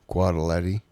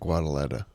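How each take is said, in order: First: The word ends with an 'eh' vowel. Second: The word ends with an 'ah' vowel. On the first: The speaker calls it right. "I think I nailed that" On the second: The speaker calls it wrong. "then I think I said Guadaleta. And there was no A there"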